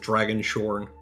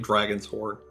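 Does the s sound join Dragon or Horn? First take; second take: Horn; Dragon. First: The s sound starts the second word. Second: The s sound ends the first word. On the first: The speaker calls it wrong. "I always want to pronounce that as Dragon Shorn" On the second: The speaker calls it right. "It's definitely Dragon's Horn"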